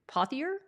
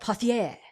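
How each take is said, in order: First: The name is pronounced the English way. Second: The name is pronounced the French way. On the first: This is how the name's owner probably says it. "you probably say Pothier" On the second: This is how a Canadian would say it. "I'm saying it the French way"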